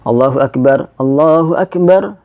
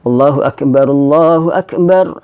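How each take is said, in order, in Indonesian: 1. Ada jeda di antara kedua frasa. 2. Kedua frasa tersambung tanpa berhenti. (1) "dipisah ya kita pisah"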